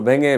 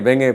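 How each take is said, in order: The two takes are said the same way.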